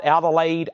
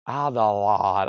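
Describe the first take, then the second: First: Said in the usual way. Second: Low, slow, badly faked Australian accent; attempted Australian accent. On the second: Shown as a demonstration. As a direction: have a half-hearted go at sounding Australian. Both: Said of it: "You gotta say that with an Australian accent".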